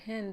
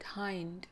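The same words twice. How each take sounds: First: The name does not rhyme with 'behind'. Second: The name rhymes with 'behind'. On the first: "calling myself here Hind" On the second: "the people write, read it Hind. Hmm. And hind is the back, you know, behind"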